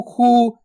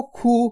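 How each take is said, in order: First: खू with the ऊ held long, the wrong way; stretched vowel. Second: खू with a short, quick ऊ, not drawn out; short u sound. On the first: Teacher demonstrating the mistake of stretching खू. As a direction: draw out खू into a long ऊ. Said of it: "खींच खींच के नहीं पढ़ना". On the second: Teacher showing pupils the correct short खू. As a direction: say खू briefly, cutting the vowel short. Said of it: "इतना ही उच्चारण करना आपको". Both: Shown as a demonstration.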